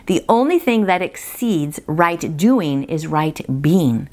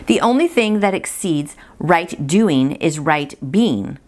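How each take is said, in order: Both takes have the same delivery.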